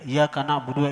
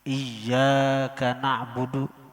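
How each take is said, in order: First: The consonant in iyyaka is said single. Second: The consonant in iyyaka is held doubled. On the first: The speaker calls it wrong. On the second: The speaker calls it right.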